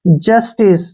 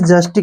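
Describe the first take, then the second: First: The word ends with an 's' sound. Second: The word ends with a 'k' sound. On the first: The speaker calls it right. "जस्टिस क्या पढ़ेंगे इसको?" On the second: The speaker calls it wrong. "इसको हमने जस्टिक नहीं पढ़ना है"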